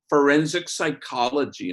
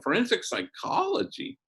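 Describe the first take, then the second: First: Said in the usual way. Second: High rising amazed echo, pitch climbing well up; impressed surprise. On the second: Retold or imitated. Priest impressed by the daughter's college major, echoing high and amazed. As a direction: savor the words like they're a big deal. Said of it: "And I go, "Damn".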